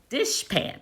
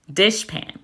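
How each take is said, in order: First: A high, hushed dishpan; high soft word demo. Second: Said in the usual way. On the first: Shown as a demonstration. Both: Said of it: "So with the word dishpan".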